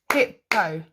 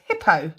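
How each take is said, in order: First: "Hippo" split into two separate beats; "Hippo" with a gap between the syllables. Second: Said in the usual way. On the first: Shown as a demonstration. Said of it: "How many?". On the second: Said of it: "say the word hippo".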